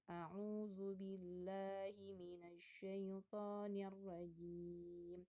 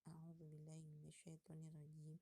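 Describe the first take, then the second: First: It is recited loudly and clearly. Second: It is recited softly and quietly. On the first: This is the first reader opening a group recitation. "yang mulai pertama itu dia biasanya lebih kenceng" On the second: This is a later reader in the group. "Dan yang selanjutnya boleh pelan"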